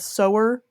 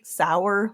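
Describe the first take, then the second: First: The vowel sounds like the one in 'go'. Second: The vowel sounds like the one in 'tower'. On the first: The speaker calls it right. "because it's about sowing seeds" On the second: The speaker calls it wrong. "like rhymes with tower or bower"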